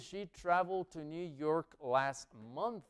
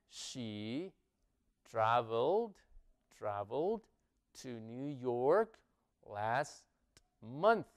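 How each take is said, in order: First: It is said at normal speed. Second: It is said more slowly.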